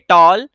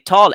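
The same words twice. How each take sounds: First: The t is said without a puff of air. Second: The t is said with a puff of air. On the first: The speaker calls it wrong. "They say tall" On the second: The speaker calls it right. "They don't say tall"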